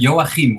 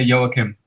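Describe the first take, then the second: First: It has a Dutch pronunciation with a guttural sound. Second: It has a simpler English pronunciation without guttural sounds. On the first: This is how people say it in the Netherlands. "most people say uh, Joachim, where I come from in the Netherlands" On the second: This simpler form is also acceptable. "but you can also just say Joachim"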